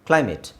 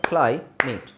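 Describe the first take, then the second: First: The two syllables are joined without a break. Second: The two syllables are said separately with a break.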